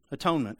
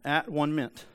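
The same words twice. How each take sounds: First: Said in the usual way. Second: "at one meant" as three distinct words; split into parts. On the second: Shown as a demonstration. Preacher showing how the word breaks down, "at one meant" in separate words. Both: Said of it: "you can just break down into three".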